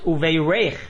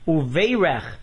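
First: The stress is on the last syllable. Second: The stress is on the first syllable. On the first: It is a verb meaning he has blessed them. The speaker calls it right. "with the accent on the reish" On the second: It is a noun meaning there will be blessing. The speaker calls it wrong. "with the accent on the vase and a segol under the reish"

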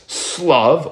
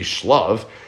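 First: The word begins with an 's' sound. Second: The word begins with an 'sh' sound. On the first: It is read as quail. "we read it as if it would say with a samach or a sin" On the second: It is read as tranquility. "it was shlav, with a shin"

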